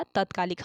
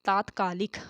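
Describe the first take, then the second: First: तत्कालिक with a short first a; तत्कालिक with quick short tat; short first vowel. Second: तात्कालिक with a long aa in the first syllable; long first vowel. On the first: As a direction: say तत्कालिक as tat-kaalik, clipping the first syllable. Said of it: "तत्कालिक बोलते हैं". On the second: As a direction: say तात्कालिक as taat-kaalik, stretching the first a. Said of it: "वर्तनी की दृष्टि से लिखें तो क्या लिखा जाएगा". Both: Shown as a demonstration.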